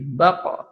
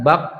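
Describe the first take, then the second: First: The final consonant is released with a bouncing echo. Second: The final consonant stops flat without an echo. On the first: The speaker calls it right. "harus dipantulkan" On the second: The speaker calls it wrong. "Tidak bak"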